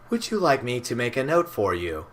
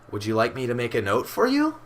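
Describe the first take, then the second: First: The pitch stays flat at the end. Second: The pitch rises at the end. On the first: It sounds like a machine. The speaker calls it wrong. "where Siri would be like" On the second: It sounds more human. The speaker calls it right. "There's an actual inflection"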